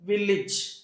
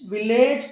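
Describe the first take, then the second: First: The ending is said with a short 'idge' vowel. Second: The ending is said with a full 'age' vowel. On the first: The speaker calls it right. "ఏజ్ అని కాకుండా ఇజ్ అని చెప్పాలి" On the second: The speaker calls it wrong. "విలేజ్ కాదు"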